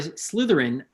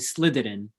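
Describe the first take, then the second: First: The word is said with its 'th' sound. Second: The word is said without its 'th' sound.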